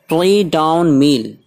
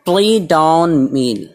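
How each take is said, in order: No difference in how they are said.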